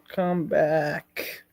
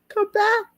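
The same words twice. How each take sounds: First: Said in the usual way. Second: Falsetto call. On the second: Pretend. Falsetto repetition.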